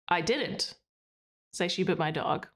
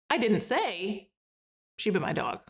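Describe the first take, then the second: First: There is a pause after the word didn't. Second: There is a pause after the word say. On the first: "and then pause after didn't" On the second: "and then pause after say"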